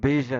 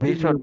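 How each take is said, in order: First: The middle consonant sounds like 'zh'. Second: The middle consonant sounds like 'sh'. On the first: The speaker calls it right. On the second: The speaker calls it wrong.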